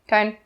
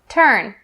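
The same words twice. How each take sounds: First: The er sound is blurred and unclear. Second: The er sound is clear and accurate. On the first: The speaker calls it wrong. "Don't say turn, turn. Not correct" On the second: The speaker calls it right. "Make sure it is pronounced clearly and accurately"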